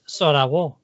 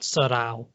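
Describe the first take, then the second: First: A clear w sound comes before the final o. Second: The final vowels run together with no w sound. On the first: The speaker calls it right. "It's Sorawo" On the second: The speaker calls it wrong. "It's not Sorao"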